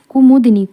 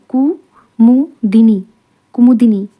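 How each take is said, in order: First: Said in the usual way. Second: Kumudini very slowly, split as कु, मु, दिनी; syllable by syllable. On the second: Shown as a demonstration. Teacher dictating a spelling word, slow syllable by syllable.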